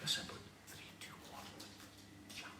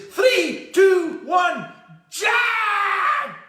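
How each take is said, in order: First: Barely audible whispered countdown. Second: Full-out high-pitched screamed countdown. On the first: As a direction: whisper shyly to the horse. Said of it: "whispers to the horse". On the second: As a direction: bellow it, stretching the final JUMP. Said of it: "he screams to this horse". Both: Acted.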